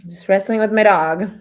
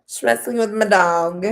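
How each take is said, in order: First: Strained while wrestling the dog; holding down a pet. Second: A bit strained while holding the dog; holding down a pet. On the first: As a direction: talk mid-tussle with a dog. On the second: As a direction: talk while pinning the dog. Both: Real, not acted.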